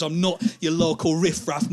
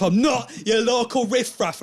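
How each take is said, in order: First: Firm, mildly indignant statement; indignant insistence. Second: High, loud outraged repeat; escalated indignation. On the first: Drunk man leaning into the comic, mildly indignant. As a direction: state it firmly, still holding back. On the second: Drunk man repeating himself to the comic, outraged. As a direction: push NOT up and out, outraged. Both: Acted. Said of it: "you repeat things".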